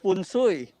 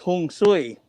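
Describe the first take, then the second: First: It begins with f and sounds like 'fun sui'. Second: It begins with h and sounds like 'hong sui'. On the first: "In Tagalog, it's" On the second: "in Hokkien, it's"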